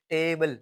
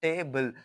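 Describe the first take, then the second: First: Said in the usual way. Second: टेबल broken into टे and बल; teacher's syllable-by-syllable टेबल; two separate syllables. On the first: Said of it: "ये different two syllable है". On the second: Shown as a demonstration. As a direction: say टेबल in two beats, टे then बल. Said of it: "ये एक अलग syllable है".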